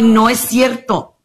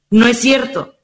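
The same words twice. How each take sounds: First: Slow and firm, NO leaned on; slow emphatic denial. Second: Said in the usual way. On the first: Shown as a demonstration. Correcting people who say they were born that way, slow firm denial. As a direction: drag out the denial, hitting no.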